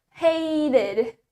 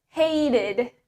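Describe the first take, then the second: No difference in how they are said.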